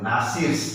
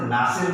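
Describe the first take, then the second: First: नासिर्स with an S sounded after the R; नासिर्स with final S. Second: नासिर ending on the R; नासिर without final S. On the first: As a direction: add the possessive S to नासिर्स. (नासिर्स, आख़िर में स की आवाज़ के साथ) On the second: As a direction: leave the S off नासिर. (नासिर, आख़िर में स के बिना) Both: Shown as a demonstration. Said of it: "सिर्फ नासिर नहीं बोलना है".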